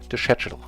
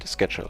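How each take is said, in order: First: Schedule is said in a British accent. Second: Schedule is said in an American accent.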